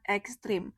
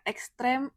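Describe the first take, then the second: First: The last syllable has an 'i' vowel. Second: The last syllable has an 'e' vowel. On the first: The speaker calls it wrong. "bukan ekstrim" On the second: The speaker calls it right. "Bentuk kata yang benar dan baku adalah ekstrem. Jadi pakai E ya"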